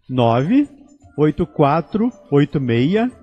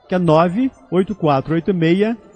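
First: The number is said slowly. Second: The number is said fast.

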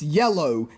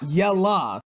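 First: The word has a standard pronunciation. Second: The word has a Southern-accent pronunciation. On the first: The speaker calls it right. "pronounce the color yellow right" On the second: The speaker calls it wrong. "not yella. I understand you're supposed to have a southern accent"

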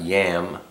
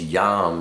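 First: The vowel is a flat 'a' as in cat. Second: The vowel is an open 'ah' sound. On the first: The speaker calls it wrong. "not yam" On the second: The speaker calls it right. "I spell it Y-A-H-M so that you get the idea. It's yam"

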